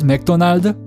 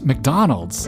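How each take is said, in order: First: It is said with a Korean-style pronunciation. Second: It is said with an English-style pronunciation. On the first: The speaker calls it wrong. "That's how they would pronounce it" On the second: The speaker calls it right. "it's McDonald's"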